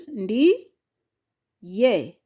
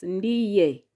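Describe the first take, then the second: First: "ndi, ye" split by a clear pause; syllable by syllable. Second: Said in the usual way. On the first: Shown as a demonstration. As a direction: say "ndi", wait, then "ye". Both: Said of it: "has syllable".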